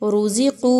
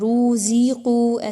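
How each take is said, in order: First: The first two vowels are kept short. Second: The first two vowels are drawn out long. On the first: The speaker calls it right. "बल्कि रुज़िक़ू" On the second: The speaker calls it wrong. "ऐसा पढ़ना दुरुस्त नहीं होगा"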